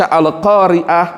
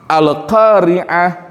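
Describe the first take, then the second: First: The middle consonant is a plain glottal stop. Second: The middle consonant is a pharyngeal 'ain' sound. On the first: It means female readers. The speaker calls it wrong. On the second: It means the Day of Judgment. The speaker calls it right.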